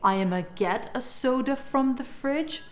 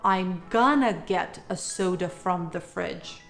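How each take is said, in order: First: 'I am going to' shrinks to a short 'I'ma'. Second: 'Going to' is reduced to 'gonna'. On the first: "You can either say"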